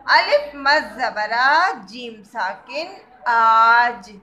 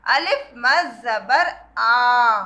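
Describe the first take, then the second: First: The आ in आज stretched long and loud; slow, emphatic spelling with a long आ; drawn-out madd. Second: The आ stretched long, about two alifs in length; slow spelling with a long drawn आ; drawn-out madd. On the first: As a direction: stretch the आ, then close on जीम. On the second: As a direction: pull the आ out long as the teacher shows. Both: Shown as a demonstration. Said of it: "उसे हम थोड़ा सा खींच के बोलते हैं".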